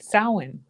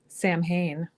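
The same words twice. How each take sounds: First: The name is given its original Irish pronunciation. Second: The name is pronounced the way it is spelled. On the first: This is the accepted form. The speaker calls it right. "because it's pronounced" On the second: People will criticize this form. The speaker calls it wrong. "you'll get slammed for saying Samhain"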